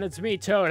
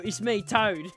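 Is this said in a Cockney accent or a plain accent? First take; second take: plain; Cockney. First: It is said in a plain everyday accent. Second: It is said in a strong Cockney accent. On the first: "you don't need to. It's just like" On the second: "like a full-on Cockney"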